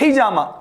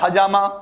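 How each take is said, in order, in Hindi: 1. h के बाद पहला स्वर i है। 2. h के बाद पहला स्वर a है। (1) "हम कहते हैं हिजामा, एच आई" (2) "एच ए बोल रहे हैं"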